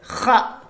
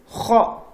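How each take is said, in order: First: The vowel is open, like a. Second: The vowel is rounded, like o. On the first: The speaker calls it wrong. "ouvrir la bouche horizontalement comme ça. Si vous faites ça, c'est kha qui sort" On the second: The speaker calls it right. "Si vous fermez la bouche comme ceci, ce qui va sortir c'est kho"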